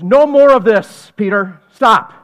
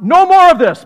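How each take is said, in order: First: "No more of this" loud and drawn out slowly, then "Stop"; slow firm command. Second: Loud, high snap: "No more of this"; sudden sharp command. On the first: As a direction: lay down the law slowly. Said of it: "He goes". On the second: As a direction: cut it off with a quick loud order. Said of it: "He says, uh". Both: Acted.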